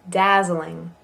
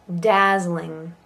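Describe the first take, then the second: The two takes are said the same way.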